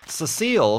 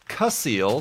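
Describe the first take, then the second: First: The first syllable sounds like 'sess'. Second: The first syllable sounds like 'cuss'. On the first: This is how the name's owner pronounces it. The speaker calls it right. "I was in the comment told precisely how to pronounce it" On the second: This is how the name is guessed from its spelling. The speaker calls it wrong. "I would have pronounced it Cussile because it starts with a C"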